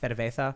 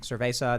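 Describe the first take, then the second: First: The z is said with a lisped th sound. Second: The z is said with a plain s sound. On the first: "they have the the Catalan lisp" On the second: "instead of saying"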